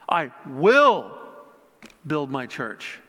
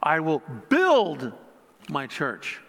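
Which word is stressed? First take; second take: will; build. First: The word 'will' is stressed. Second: The word 'build' is stressed. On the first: "putting an emphasis on each word" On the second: "putting an emphasis on each word"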